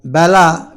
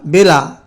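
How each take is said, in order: First: বেলা said as "bæla", with an open vowel; open-vowel pronunciation. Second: বেলা said as "bela", with a pure e; close-vowel pronunciation. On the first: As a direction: say বেলা with the vowel of English "bat". ("ব্যালা" উচ্চারণ, খোলা অ্যা-ধ্বনি) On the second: ("বেলা" উচ্চারণ, খাঁটি এ-ধ্বনি) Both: Shown as a demonstration. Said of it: "বেলা উচ্চারণে".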